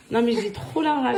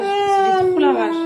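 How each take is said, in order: First: Said in the usual way. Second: Slow, high, louder "J'ai trop la rage" dragged out in anger; drawn-out rage. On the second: Real, not acted. Mother venting to followers about her husband, slow furious outburst. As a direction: stretch every word of "J'ai trop la rage" with real fury.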